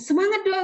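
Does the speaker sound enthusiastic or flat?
enthusiastic. It is said in a lively, enthusiastic way. The speaker is motivated themselves. The speaker calls it right. "dengan semangat"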